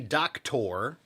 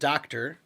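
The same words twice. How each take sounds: First: The ending has a full, clear 'or' vowel. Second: The ending is a short, reduced 'er' sound. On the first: The speaker calls it wrong. "We don't say doctor" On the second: The speaker calls it right. "We pronounce it doctor and teacher"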